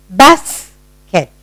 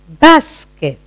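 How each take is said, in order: First: "Basket" broken in two with a pause; split into syllables. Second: Said in the usual way. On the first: Shown as a demonstration. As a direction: say "Basket" one syllable at a time. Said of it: "listen to your own sound". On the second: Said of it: "you find the sound yourself".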